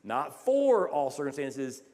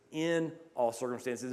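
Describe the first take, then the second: First: Slow, with the word "for" leaned on hard; the rejected reading, with "for" pressed; stress on for. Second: "in" hit firmly, the rest falling away; the corrected reading, with "in" stressed. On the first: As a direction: make "for" the word that carries the line. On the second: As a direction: land on "in" as the right word. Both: Shown as a demonstration.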